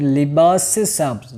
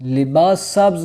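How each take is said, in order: First: A short 'e' vowel links the two words. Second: The two words are joined with no linking vowel. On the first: The speaker calls it right. "बल्कि क्या बोल रहे हैं, लिबास से सब्ज़" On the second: The speaker calls it wrong. "लिबास सब्ज़ नहीं बोलना चाह रहे"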